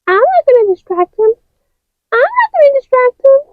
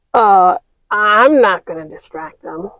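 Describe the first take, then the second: First: High, fast refusal; high quick toy voice; high character voice. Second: Said in the usual way. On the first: Acted. Other figures refuse.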